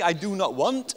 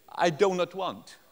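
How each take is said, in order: First: "do not" as two separate words, DOO NOT; "do not want" loud and higher, rising on "want"; clear full words. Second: "do not" run together like "donut"; slow, higher "do not want" sounding like "donut want"; foreign learner's ambiguity. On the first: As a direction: pronounce "do not" distinctly. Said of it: "is he saying". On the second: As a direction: blur "do not" into DOH-nut. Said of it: "has a terrible accent". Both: Shown as a demonstration.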